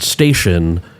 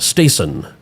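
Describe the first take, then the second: First: The middle consonant is an sh sound. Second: The middle consonant is a plain s sound. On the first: "instead of the sh" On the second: "some people would pronounce the word station as"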